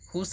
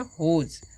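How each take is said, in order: First: The word ends with a hissing s sound. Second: The word ends with a buzzing z sound. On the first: The speaker calls it wrong. "स नहीं पढ़िएगा, हुस नहीं" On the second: The speaker calls it right. "एस का उच्चारण जो है ज करते हैं"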